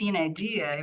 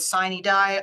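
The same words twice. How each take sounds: First: It is pronounced the Latin way. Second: It is pronounced the English way.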